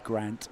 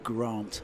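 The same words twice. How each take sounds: First: The vowel is a short flat 'a' sound. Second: The vowel is a long 'ar' sound. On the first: "if I was from northern England, I would say Grant" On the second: "where I come from, we pronounce them as R"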